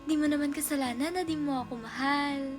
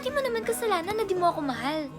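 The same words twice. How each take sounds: First: The line sounds warm and supportive. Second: The line sounds harsh and angry.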